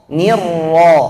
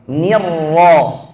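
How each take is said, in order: The two takes are said the same way.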